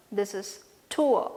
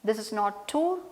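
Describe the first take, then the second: First: "tour" glided as /tuə/, oo into uh; "tour" with the oor diphthong; correct tour. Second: "tour" said as a plain /tu/ with a clipped vowel; "tour" as the mistaken single oo; wrong tour. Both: Shown as a demonstration.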